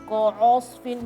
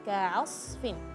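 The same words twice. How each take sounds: First: The ain is pronounced heavy, like the following sad. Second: The ain is pronounced light, only the sad heavy. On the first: The speaker calls it wrong. "jangan ka'asfin, jadi dua huruf ke bawah tebal" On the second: The speaker calls it right. "Harusnya ka'a ka'asfin"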